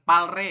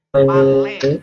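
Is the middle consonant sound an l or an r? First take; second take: r; l. First: The middle consonant sounds like an r. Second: The middle consonant sounds like a long l. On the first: The speaker calls it wrong. "ini dibacanya bukan palre ya" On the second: The speaker calls it right. "tapi pale ya, sesuai tata bahasa"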